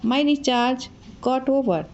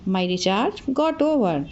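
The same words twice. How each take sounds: First: Said in the usual way. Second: "my recharge got over" said very slowly, word by word; slow, clear drill of "my recharge got over"; slow teaching repeat. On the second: Shown as a demonstration. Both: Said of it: "तो मेरा recharge ख़त्म हो गया".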